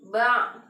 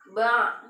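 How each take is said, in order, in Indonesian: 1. Bunyi ain di akhir sedikit dipanjangkan. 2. Bunyi ain di akhir sedikit dipanjangkan.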